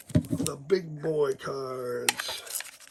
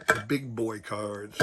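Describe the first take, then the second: First: Very slow, raised pitch, mock-grand; drawn-out showing off. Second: Said in the usual way. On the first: Collector showing off his big boy cards, drawn out. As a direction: stretch every word out, higher and playful.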